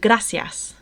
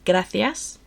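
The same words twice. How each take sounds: First: The c is said as an s sound. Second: The c is said as a th sound. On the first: This is the form used in Latin America. "which is more used in Latin America" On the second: This is the form used in Spain. "people in Spain are more likely to say gracias with a th"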